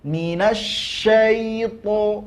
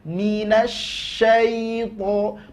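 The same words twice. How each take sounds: No difference in how they are said.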